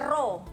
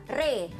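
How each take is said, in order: First: The syllable is said with a full o vowel. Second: The syllable is said with a middle e vowel. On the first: The speaker calls it wrong. "Jangan baca ro" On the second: The speaker calls it right. "jadi sebutannya re"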